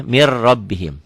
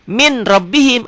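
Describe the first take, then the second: First: MIR RABBIHIM as one word, rolled double R; N merged into R. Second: Higher MIN RABBIHIM with the N clearly sounded; written form with N. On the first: Teacher contrasting reading with spelling, MIR with rolled R. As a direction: lose the N and roll the R. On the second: Teacher contrasting spelling with reading, MIN with clear N. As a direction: stop on the N of MIN before the R. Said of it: "ada N-nya". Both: Shown as a demonstration.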